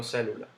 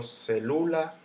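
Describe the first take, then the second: First: Said in the usual way. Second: Celula stressed on LU, ce-LU-la; wrong middle stress. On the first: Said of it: "Yo digo célula". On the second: Shown as a demonstration. Teacher showing how not to say it, celula stressed on LU. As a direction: lift and stretch LU in celula. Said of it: "Yo no digo celula".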